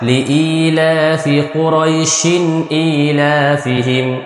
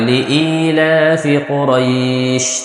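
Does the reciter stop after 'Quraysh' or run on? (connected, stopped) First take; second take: connected; stopped. First: The reciter runs Quraishin straight into the next word. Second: The reciter stops and lengthens the end of Quraysh. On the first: "মিলিয়ে বলে টান হবে না" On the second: "যদি আমি থেমে যাই তাহলে একালিপ টান হবে"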